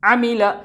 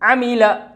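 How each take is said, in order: Both takes have the same delivery.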